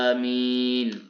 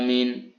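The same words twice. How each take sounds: First: The vowels are drawn out long. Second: The vowels are clipped short. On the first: The speaker calls it right. "A-nya panjang, hamzahnya panjang, mim-nya dibaca panjang tanpa bertasydid" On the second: The speaker calls it wrong. "hamzahnya pendek, mimnya dibaca pendek"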